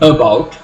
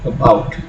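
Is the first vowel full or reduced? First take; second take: full; reduced. First: The first vowel is a full, unreduced vowel. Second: The first vowel is a soft reduced ah. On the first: The speaker calls it wrong. "You do not pronounce it as about" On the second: The speaker calls it right. "but about ... have the soft ah sound"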